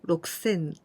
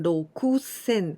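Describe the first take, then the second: First: The vowel after the k is dropped. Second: The vowel after the k is fully pronounced. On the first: The speaker calls it right. "It's like only K sound" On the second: The speaker calls it wrong. "our pronunciation is not so rokusen"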